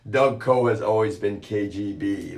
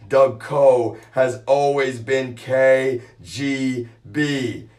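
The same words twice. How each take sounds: First: Said in the usual way. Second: "Doug Coe has always been K G B" said slowly with each word weighed; slow emphatic restatement. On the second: Shown as a demonstration. Emphasizing the claim to viewers, slow and deliberate. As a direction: repeat it slowly, hitting "K G B". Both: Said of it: "Let me emphasize that".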